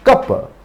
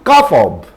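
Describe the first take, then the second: First: The 'of' shrinks into a short vowel. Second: The word 'of' is said in full.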